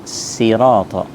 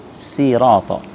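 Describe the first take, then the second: The two takes are said the same way.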